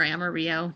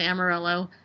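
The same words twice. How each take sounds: First: "Amarillo" with the double L as a Y; "Amarillo" ending in ee-oh; Spanish-style Amarillo. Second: "Amarillo" with the L sounded; "Amarillo" ending in ell-oh; anglicized Amarillo. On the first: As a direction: say "Amarillo" as am-a-REE-oh. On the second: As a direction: say "Amarillo" English-style, as am-a-RILL-oh. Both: Shown as a demonstration. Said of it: "however you wanna say it".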